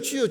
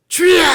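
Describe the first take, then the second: First: It is said quickly and perfunctorily. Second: It is said long and earnestly.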